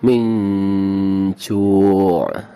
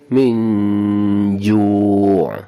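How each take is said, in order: First: The consonant is a voiceless ch sound. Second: The consonant is a voiced j sound. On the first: The speaker calls it wrong. "ada c-c-nya" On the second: The speaker calls it right. "benar-benar kedengaran seperti huruf J"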